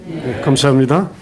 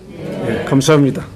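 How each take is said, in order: The two takes are said the same way.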